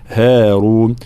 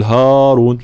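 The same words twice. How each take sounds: First: "هارون" with thin, fronted haa; correct light ha. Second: "هارون" with dark, thick haa; wrong heavy ha. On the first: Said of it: "ترقيق الهاء". (هارون بهاء مرققة) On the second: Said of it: "لا نقول هارون". (هارون بهاء مفخمة خطأً) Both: Shown as a demonstration.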